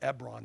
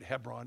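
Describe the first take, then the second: First: The word begins without an h sound. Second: The word begins with an h sound. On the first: "Ebron is the way we would pronounce it" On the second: "Some people read Hebron. It's H-E-B"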